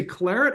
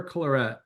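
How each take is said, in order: First: Claret with the stress on the first syllable; first pronunciation. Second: Claret with the stress moved to the second syllable; alternative pronunciation. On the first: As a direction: say claret stressed up front, CLAR-et. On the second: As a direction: say claret French-style, clar-ETTE. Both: Shown as a demonstration. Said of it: "do you say claret or claret".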